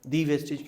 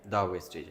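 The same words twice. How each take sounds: First: "the wastage" with "the" said as "thee", long ee; teacher poses the wrong form as a question; wrong "thee" version. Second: "the wastage" with "the" said as "da", short vowel; teacher modelling "the" before a consonant; correct "the" before consonant. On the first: Teacher contrasts the wrong "thee" reading. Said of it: "the क्यों है". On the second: Teacher models "the" as "da" for students. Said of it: "ये एक बड़ा technical point है". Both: Shown as a demonstration.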